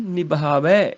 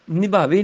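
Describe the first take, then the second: First: ਨਿਭਾਵੈ ending in long open 'ai'; corrected open vowel. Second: ਨਿਭਾਵੇ ending in close 'e'; wrong close vowel. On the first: Teacher correcting, ਨਿਭਾਵੈ with open 'ai'. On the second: Teacher showing the mistake, ਨਿਭਾਵੇ with close 'e'. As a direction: say ਨਿਭਾਵੇ as 'nibhaa-vay'. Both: Shown as a demonstration. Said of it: "ਨਿਭਾਵੇ ਨਹੀਂ".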